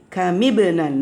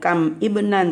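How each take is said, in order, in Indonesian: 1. Huruf m diberi vokal i, tersambung menjadi benan. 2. Kam berakhir dengan m mati; ibnan dimulai terpisah. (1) "mimnya dihidupin. Kasih kasroh"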